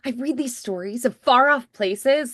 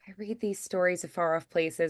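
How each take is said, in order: First: It is said bigger, with excited energy. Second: It is said plainly, with little energy.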